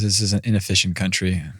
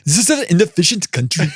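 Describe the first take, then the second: First: It is said in the speaker's ordinary accent. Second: It is said in a put-on German accent.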